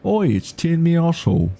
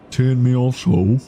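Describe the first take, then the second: First: High, hammed-up English accent; a bad cockney farmer voice, Oi up top; terrible English accent. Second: Tiered Me Asshole in a put-on English accent. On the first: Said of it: "Terrible English accent". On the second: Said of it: "say it in a thick English accent". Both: Shown as a demonstration.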